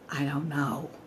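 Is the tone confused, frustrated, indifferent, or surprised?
frustrated. It sounds frustrated and exasperated. The speaker is annoyed at not knowing.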